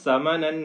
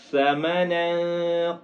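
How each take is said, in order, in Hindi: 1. शब्द 's' की आवाज़ से शुरू होता है। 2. शब्द 'th' की आवाज़ से शुरू होता है। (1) "इसको सीन नहीं पढ़ना, समनन नहीं पढ़ना" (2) "बल्कि समनन कलीला"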